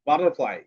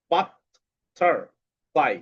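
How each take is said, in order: First: Said in the usual way. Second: "butterfly" very slow, long gaps between three syllables; split into syllables. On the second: Shown as a demonstration. Teacher showing pupils the fun of dividing, "butterfly" split slowly. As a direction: break "butterfly" into three isolated beats. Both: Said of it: "সিলেবালের মাধ্যমে শব্দ ভাগ".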